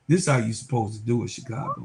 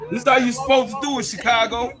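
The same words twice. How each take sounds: First: Smug taunt. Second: Higher, louder and fast, crowing at Chicago; gleeful shout. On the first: Vlogger taunts Chicago after the welcome party, quick hushed sneer. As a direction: rattle it off under your breath like an inside joke. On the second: Vlogger shouts at Chicago Sky over how to treat players, fast gleeful yell. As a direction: yell it out like a victory lap. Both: Real, not acted.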